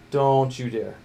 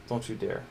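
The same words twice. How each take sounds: First: "Don't" drawn out and hit hard; emphatic warning. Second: Said in the usual way. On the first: Real, not acted. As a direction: warn it slowly, leaning on "Don't". Repeats warning to part, harder.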